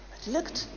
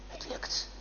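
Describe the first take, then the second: First: Said in the usual way. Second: Unvoiced "lukt", hushed; whispered relief. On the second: A narrator's reading. Storyteller as Francis crosses the border, whispering. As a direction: breathe it as a quiet relief.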